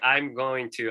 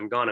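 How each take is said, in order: First: Going to is said in full. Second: Going to is reduced to gonna.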